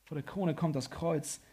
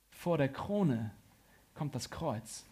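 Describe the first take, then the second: First: Said in the usual way. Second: Slow, with a pause before „kommt das Kreuz“; slow, weighty statement. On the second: Real, not acted. Preacher stating that the cross comes first, slow and weighty. Key line given slowly, then repeated.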